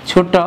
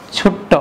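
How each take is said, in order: First: Said in the usual way. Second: ছোট্ট with a held, doubled ট; doubled consonant. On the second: Shown as a demonstration. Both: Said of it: "এটা দ্বিত্ব ব্যঞ্জন".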